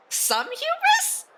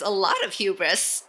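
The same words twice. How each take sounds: First: Ongelovig. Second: Said in the usual way. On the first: Pretend. Mock disbelief at game text.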